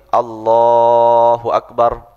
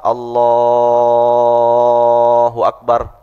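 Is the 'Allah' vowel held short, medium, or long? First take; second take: short; long. First: The vowel in Allah is held two beats. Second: The vowel in Allah is held six beats.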